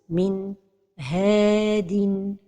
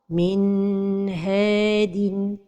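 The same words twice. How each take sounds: First: There is a break between N and H. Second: The N is held too long before H. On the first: "c'est la pause" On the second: "c'est de prolonger sans temps"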